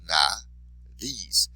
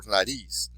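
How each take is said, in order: First: Nariz broken as "na... riz"; split into syllables. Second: Said in the usual way. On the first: Shown as a demonstration. Teacher showing the stressed syllable, nariz split in two. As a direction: pause inside nariz before the stressed "riz". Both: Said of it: "that's where your stress would be".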